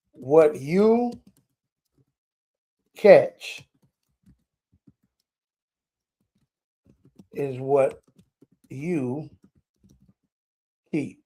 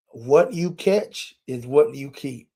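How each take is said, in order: First: Slow dictation. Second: Said in the usual way. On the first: Shown as a demonstration. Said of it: "I want y'all to catch that one".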